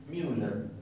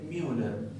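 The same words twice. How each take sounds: First: The first vowel is a glide like 'you'. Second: The first vowel is a glide like 'you'.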